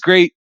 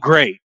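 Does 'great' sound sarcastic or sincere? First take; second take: sincere; sarcastic. First: It sounds sincere and genuinely pleased. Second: It sounds sarcastic and displeased. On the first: It really was good. "great is positive most of the time" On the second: It was not actually good. "or was it, oh, great ... because I said it that way"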